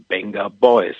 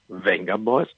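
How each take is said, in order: First: The name begins with a B sound. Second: The name begins with a V sound. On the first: The speaker calls it right. "Aber das V wird als B gesprochen" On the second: The speaker calls it wrong. "genannt in Deutschland Venga Boys"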